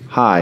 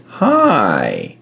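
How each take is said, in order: First: Said in the usual way. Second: Long, drawn-out creepy "hi"; creepy parrot. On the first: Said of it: "it didn't say, "Hi". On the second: Retold or imitated. Parrot greeting someone passing the basement door, creepy drawl. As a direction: stretch it out like an eerie talking bird. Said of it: "It said, "Hi".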